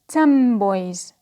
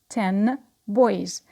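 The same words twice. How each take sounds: First: The word ten ends with an m sound. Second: The word ten ends with an n sound.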